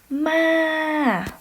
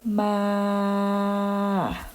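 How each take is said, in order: First: The pitch starts high and falls sharply. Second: The pitch stays level in the middle range. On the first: "next tone is falling tone" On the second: "middle tone"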